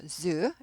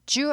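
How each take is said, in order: First: The first sound is a buzzing z. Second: The first sound is not a buzzing z. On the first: The speaker calls it right. "zoo죠" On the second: The speaker calls it wrong. "zoo 아니고"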